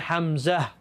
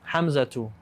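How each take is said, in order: First: The word ends without the 'tu' syllable. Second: The word ends with a pronounced 'tu' syllable. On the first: It is the form used when stopping. "If you stop, you say Hamza" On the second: It is the full form used when speech continues. "It's really Hamzatu"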